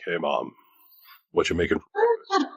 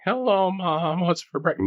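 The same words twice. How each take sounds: First: Lower, settled grown-man voice; a hint of a deep man's voice; deep adult voice. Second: Mock squeaky teenage voice, much higher; cracking teen voice. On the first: Teen showing mom his new deep voice, lower. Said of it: "No, it was like". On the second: Teen greeting his mom at breakfast, voice cracking high. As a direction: squeak it out like a boy whose voice is breaking. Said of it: "It wasn't like".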